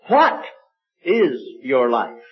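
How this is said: The stress falls on the word what. "With the emphasis on the what"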